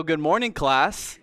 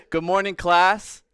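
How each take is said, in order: First: Teacher voice. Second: Loud, sharp classroom greeting; teacher voice. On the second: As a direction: call the class to order like a teacher. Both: Shown as a demonstration. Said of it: "That is my teacher voice".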